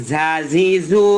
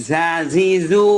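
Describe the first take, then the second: No difference in how they are said.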